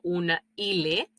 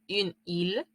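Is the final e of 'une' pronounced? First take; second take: yes; no. First: The final e of 'une' is pronounced. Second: The final e of 'une' is silent. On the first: The speaker calls it wrong. "yo no digo una île" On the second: The speaker calls it right. "la letra E al final de la palabra no se pronuncia"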